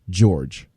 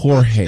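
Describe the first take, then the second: First: The name is pronounced the English way. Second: The name is pronounced the Spanish way. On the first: The speaker calls it wrong. "he calls Jorge Masvidal George" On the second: The speaker calls it right.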